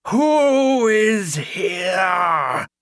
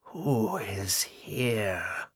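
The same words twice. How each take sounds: First: High, loud, slow wailing ghost; ghostly cry. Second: Slow, hollow and cold as a tomb; hollow ghostly whisper. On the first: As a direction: wail it out like a storm at the door. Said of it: "she cried". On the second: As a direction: breathe it out like wind through a tomb. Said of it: "Agatha whispered". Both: A narrator's reading.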